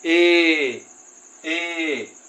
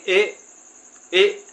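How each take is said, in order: First: ए drawn out slowly; long ए. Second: ए snapped out short and loud; short jerked ए. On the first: Teacher demonstrating long ए, drawn out slowly. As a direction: stretch ए long at the end. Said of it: "थोड़ा सा लंबा खींचेंगे". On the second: Teacher showing short ए to students, quick and loud. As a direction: hit ए in one quick jerk. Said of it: "इसको बोलेंगे एक झटके के साथ". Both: Shown as a demonstration.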